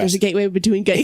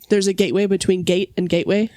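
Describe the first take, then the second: First: It is said very fast. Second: It is said at normal speed.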